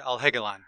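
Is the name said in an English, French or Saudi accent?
English. The name is said with an English accent.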